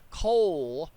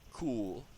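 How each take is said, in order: First: The vowel is an oh sound. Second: The vowel is a long oo sound. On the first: The speaker calls it right. "It's not cool, it's coal" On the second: The speaker calls it wrong. "I don't think I said that right"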